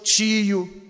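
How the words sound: Carioca accent, the t sounds like 'ch'.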